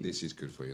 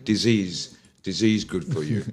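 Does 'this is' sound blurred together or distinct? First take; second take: distinct; blurred. First: 'This is' is said as two distinct words. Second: 'This is' is blurred into one word. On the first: The speaker calls it right. "So this is what he should say" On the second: The speaker calls it wrong. "But he's pronouncing it wrong"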